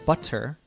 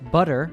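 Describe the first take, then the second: First: The middle t is a clear t sound. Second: The middle t sounds like a quick d. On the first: "instead of" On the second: "it usually morphs into a D sound"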